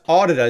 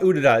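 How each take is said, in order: First: The first syllable sounds like 'audio'. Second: The first syllable does not sound like 'audio'. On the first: The speaker calls it right. "It's like audio da da" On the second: The speaker calls it wrong. "It's not Udida"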